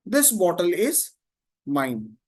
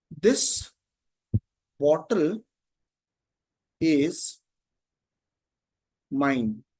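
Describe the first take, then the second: First: Said in the usual way. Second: One word at a time, long pauses between; spaced-out words, very slow; word-by-word dictation. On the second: Shown as a demonstration. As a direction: dictate it slowly as if writing it out. Dictating while writing the example.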